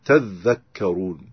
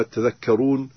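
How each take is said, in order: First: Slow, lower تذكرون as "tadh-dhakkaroon"; doubled dhal. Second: Said in the usual way. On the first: Shown as a demonstration. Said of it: "يشدد الذال". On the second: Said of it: "كلمة تذكرون".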